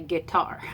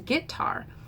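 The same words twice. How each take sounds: First: The stress is on the second syllable. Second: The stress is on the first syllable. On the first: "iambs are words like souffle, fondue, the way I say guitar" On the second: "Trochees are the stressed, unstressed, the way my husband says guitar"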